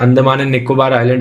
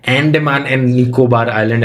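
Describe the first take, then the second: First: The first vowel sounds like 'uh'. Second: The first vowel sounds like 'eh'. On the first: The speaker calls it right. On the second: The speaker calls it wrong.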